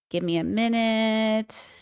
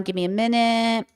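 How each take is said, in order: First: Slow, quieter, stretched out; slow and drawn out. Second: Said in the usual way. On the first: Real, not acted. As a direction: stretch it, distracted.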